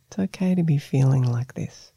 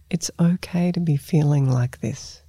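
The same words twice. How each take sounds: First: Soothing, comforting tone. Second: Said in the usual way. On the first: Shown as a demonstration. Meditation teacher models the phrase for the listener, gently soothing. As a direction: comfort a small child or a pet with it. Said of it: "tone that you would use comforting a small child". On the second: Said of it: "bring a warm, soothing tone".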